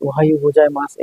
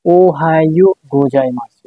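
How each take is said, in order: First: Said in the usual way. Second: ওহায়ো গোজাইমাসু said slowly, with long vowels; slow model reading of ওহায়ো গোজাইমাসু; pronunciation demo. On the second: Shown as a demonstration. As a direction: present ওহায়ো গোজাইমাসু clearly and slowly for learners. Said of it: "এটার উচ্চারণ হচ্ছে কি?".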